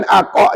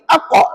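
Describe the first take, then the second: First: "aqa" with an overlong first vowel; drawn-out qalqalah. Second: Brief "a" then a bounced "qa" in "aqa"; short qalqalah. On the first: Teacher showing what not to say, drawn-out "aqa". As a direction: linger on the "a" before "qa". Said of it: "jangan lama sebut". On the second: Teacher giving students the model, short bounced "aqa". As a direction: say "aqa" without lingering on the first vowel. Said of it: "Begitu sahaja". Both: Shown as a demonstration.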